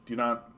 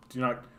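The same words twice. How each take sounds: The two takes are said the same way.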